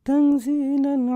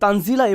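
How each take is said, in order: First: The word is said softly and gently. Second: The word is said forcefully and strongly. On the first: It sounds like an ordinary statement. The speaker calls it wrong. "মানে নরম ভাবে এখানে বলা হচ্ছে না। আপনারা তো এভাবে পড়েন না" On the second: The speaker is commanding with great authority. The speaker calls it right. "তখন তানজিলা এভাবে আসে"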